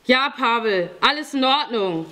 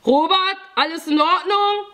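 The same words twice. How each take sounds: First: Raised-pitch answering call, falling at the end; projected confirming reply; calling back. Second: High, loud questioning call; urgent raised check-in shout. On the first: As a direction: call back reassurance to another room. Calls answer back to Pavel inside. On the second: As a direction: call from another room, ending on a rise. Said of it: "hörte ich Pavel von drin rufen". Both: A narrator's reading.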